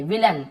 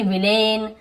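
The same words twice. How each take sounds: First: "विलन" with a short, weak -लन; short अ ending. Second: "विलेन" with a long ए in -लेन; wrong long vowel. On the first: Teacher confirming the right reading, "विलन" ending -लन. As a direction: say "विलन" with अ, not ए. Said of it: "अ पढ़ रहे हैं इसे". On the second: Teacher showing what not to read, "विलेन" with long -लेन. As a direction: stretch the last syllable of "विलेन" as -लेन. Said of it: "ऐसे यहाँ पे ये नहीं पढ़ेंगे". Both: Shown as a demonstration.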